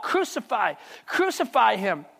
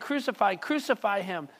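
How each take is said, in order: First: Crowd crying out. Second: Said in the usual way. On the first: Acted. Preacher voicing the priests crying out for crucifixion, slow and insistent. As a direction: let the crowd's cry land slowly. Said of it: "they cried out". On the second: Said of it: "But the people demand".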